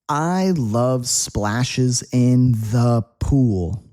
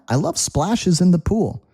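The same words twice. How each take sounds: First: The sentence is said at a slower pace. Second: The sentence is said at a faster pace.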